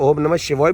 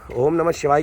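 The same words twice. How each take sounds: First: The last word ends with an 'oy' sound. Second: The last word ends with an 'aay' sound. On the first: "शिवाय S H I V ओ वाई शिवाय" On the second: "ओम नमः शिवाय की जगह"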